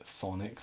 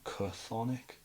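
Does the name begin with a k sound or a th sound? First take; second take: th sound; k sound. First: The name begins with a plain th sound. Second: The name begins with a k sound before th. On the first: The speaker calls it right. "now you just pronounce it Thonic" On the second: The speaker calls it wrong. "People call them like Chthonic"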